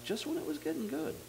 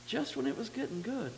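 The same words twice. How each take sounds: First: Said in the usual way. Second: Higher, pleading repeat of just when it was getting good; emphatic repeat. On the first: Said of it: "repeats phrase". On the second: Shown as a demonstration. Preacher repeating his first thought to the congregation, emphatically. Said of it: "repeats phrase higher".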